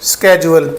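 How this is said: It starts with 'sk' and has a 'j' sound. "American English में ये पढ़ा जाता है स्केजुअल"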